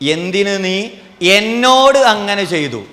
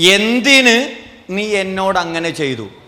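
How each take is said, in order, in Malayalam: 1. ഊന്നൽ വീഴുന്നത് എന്നോട് എന്ന വാക്കിലാണ്. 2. ഊന്നൽ വീഴുന്നത് എന്തിന് എന്ന വാക്കിലാണ്. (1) "എന്നോട് ചെയ്തതാ പ്രശ്നം" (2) "എന്തിന് ചെയ്തു എന്നുള്ളതാണ് പ്രശ്നം"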